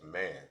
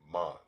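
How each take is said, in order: First: It sounds like the ordinary English word. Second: It sounds different from the ordinary English word. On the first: The speaker calls it wrong. "man is not pronounced as man" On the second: The speaker calls it right. "it's pronounced as man"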